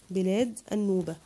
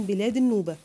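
First: Said in the usual way. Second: بلاد النوبة said louder, with a falling close on النوبة; a teacher giving the answer with a firm push; answer stressed. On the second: Shown as a demonstration. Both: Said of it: "هنقول ايه بين قوسين؟".

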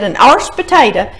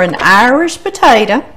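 First: "Irish" squashed into one syllable, like "arsh"; papa's country pronunciation. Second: Said in the usual way. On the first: Retold or imitated. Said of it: "like my papa said".

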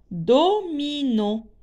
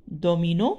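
First: "Domino" split into do-mi-no, slow and higher; syllable by syllable. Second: Said in the usual way. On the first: Shown as a demonstration. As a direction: stretch "Domino" syllable by syllable, slowly. ("Domino" lentement, syllabe par syllabe) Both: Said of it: "Domino contient trois syllabes".

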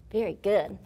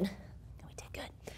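First: Said in the usual way. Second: Whisper. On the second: Real, not acted. Praising kids after the exercise.

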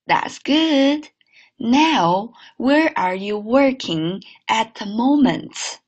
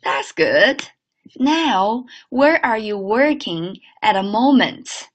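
First: Slow clear repeat; careful second read; repeat model. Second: Slow clear teacher read; careful model sentence. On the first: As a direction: say it again slowly. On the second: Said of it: "看下一句". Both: Shown as a demonstration.

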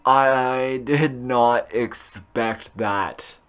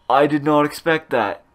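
First: Very slow, word by word; slow emphatic repeat. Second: Said in the usual way. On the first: Real, not acted. Gamer repeating his surprise, very slow and deliberate. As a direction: stretch it out with stunned pauses.

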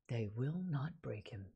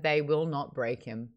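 First: Low, hushed, deliberate repetition; quiet, weighty vow, pitched down; solemn echo. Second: Said in the usual way. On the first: Real, not acted. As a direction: say it softly and low, with gravity. Repeats quoted line for solemn emphasis.

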